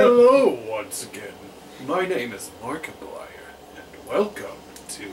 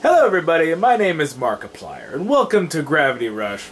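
First: Booming hello, then a hushed, breathy intro; exaggerated YouTuber impression, big opening falling away; Markiplier. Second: Markiplier. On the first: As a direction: burst in loud, then drop to a dramatic near-whisper. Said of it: "How did I do with that?". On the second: Acted. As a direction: have a go at a big host's channel welcome. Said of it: "let me try Markiplier".

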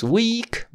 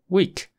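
First: Week said the wrong way. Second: Week with a crisp short I; week, clean and short I sound; right week. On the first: Teacher showing the wrong week to a Spanish speaker. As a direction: week with the vowel to avoid. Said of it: "No digas week". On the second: Teacher showing the correct week to a Spanish speaker. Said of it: "pero week". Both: Shown as a demonstration.

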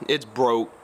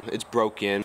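First: Said in the usual way. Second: BROKEN with its full ending, lower; self-correction to broken, a little lower; corrected to BROKEN. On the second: Real, not acted. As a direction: finish the word broken with a clear "-en". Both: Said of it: "been on me about my language".

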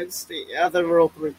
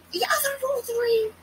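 First: Said in the usual way. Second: High squeak on "other roll three"; mocking squeak of "the other roll three"; squeaky high imitation. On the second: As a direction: mimic it in a squeaky voice. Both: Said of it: "Roll three, roll three".

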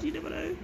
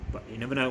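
First: Sing-song tease. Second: Said in the usual way. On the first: Real, not acted.

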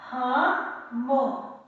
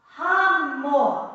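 First: Syllable by syllable. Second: Said in the usual way. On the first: Shown as a demonstration. Teacher sounds out word after spelling.

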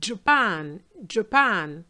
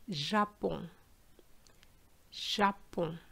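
First: Japan with English 'dj' and a clear final n; English pronunciation. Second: Japon softly, with 'zh' and a nasal ending; French pronunciation. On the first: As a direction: stress the second syllable of Japan, 'djuh-PAN'. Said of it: "we say in English Japan". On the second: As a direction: say Japon as French 'zha-pon', n unsounded. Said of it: "But in French". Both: Shown as a demonstration.

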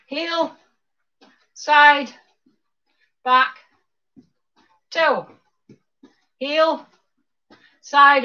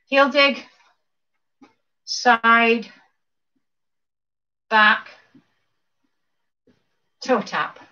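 First: Quicker cueing with shorter gaps between moves; faster step calls. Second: Slow count-through. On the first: Instructor speeding up the dance routine, faster cues. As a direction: call the steps at a brisker beat. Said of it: "You go faster". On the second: Instructor walking class through dance steps slowly. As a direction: step cues spaced out with long pauses. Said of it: "do it one more time slowly". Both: Shown as a demonstration.

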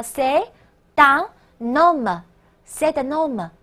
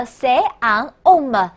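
First: "c'est un homme" slowly, T linked into un, N into homme; linked with liaison. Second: "c'est un homme" with each word separate, no linking consonants; unlinked words. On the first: Teacher shows students the linking, slow "c'est un homme" with liaison. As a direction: sound "c'est un homme" as "c'est tun nomme". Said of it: "要连读和连诵". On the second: Teacher shows what French people avoid, "c'est un homme" unlinked. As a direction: say "c'est un homme" without liaison, vowels bumping. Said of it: "本来单个读音叫做". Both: Shown as a demonstration.

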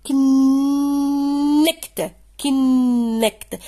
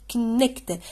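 First: كنكت drawn out very slow, louder on the second syllable; stressed syllable demo. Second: Said in the usual way. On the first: Shown as a demonstration. Teacher showing pupils where the stress falls, slow and loud. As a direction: stretch كنكت and lean on the end. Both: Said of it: "ميم كي تنطقها كنكت".

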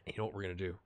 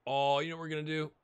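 First: Said in the usual way. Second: Eager, scheming lift; sudden excitement. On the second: Real, not acted. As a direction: voice jumps up with a fresh idea. Sudden idea, excited repeat.

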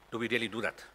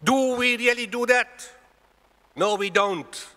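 First: Said in the usual way. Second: Loud, high, slowed-down preaching cry; forceful rhetorical challenge. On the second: Real, not acted. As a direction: hammer the question at the congregation. Repeats the question at full force.

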